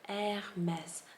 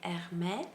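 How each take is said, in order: First: The final S sound is pronounced. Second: The final S sound is dropped. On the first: The speaker calls it right. "the correct way is Hermès" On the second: The speaker calls it wrong. "I would drop the S at the end"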